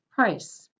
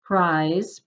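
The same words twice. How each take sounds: First: "price" short and clipped; short vowel before voiceless s. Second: "Prize" with a stretched vowel and buzzing z; long vowel before voiced z. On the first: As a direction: cut "price" off at the s. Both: Shown as a demonstration. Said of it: "Let me read through them one more time".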